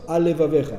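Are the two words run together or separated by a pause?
run together. The two words run together without pause. The speaker calls it wrong.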